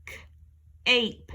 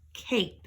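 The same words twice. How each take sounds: First: K-ape stretched very slowly; slow segmented k-ape. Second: Said in the usual way. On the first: Shown as a demonstration. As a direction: draw out k-ape. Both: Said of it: "add an E at the end".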